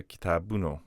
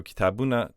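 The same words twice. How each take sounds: First: "Kitabuno", lower, ending in "oh"; final o sound. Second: "Kitabuna" closing on a short "uh"; little final vowel. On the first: Teacher recapping what it turns into, o-ended "Kitabuno". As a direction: close "Kitabuno" on an o. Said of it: "o sound". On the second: Teacher recapping the form before inflection, "Kitabuna" with little end vowel. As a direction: keep the small last vowel in "Kitabuna". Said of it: "a little vowel on the end". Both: Shown as a demonstration.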